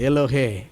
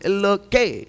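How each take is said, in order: First: The last syllable starts with an h sound. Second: The last syllable starts with a g sound. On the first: The speaker calls it right. "எல்லோகேல் கிடையாது" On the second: The speaker calls it wrong. "இன்னைக்கு ஸ்டைல் ஆகி போச்சு"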